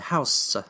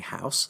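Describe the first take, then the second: First: The word ends with a strongly stressed final syllable. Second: The word ends plainly with no stressed ending. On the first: "put very strong emphasis on the final syllable" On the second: "instead of saying"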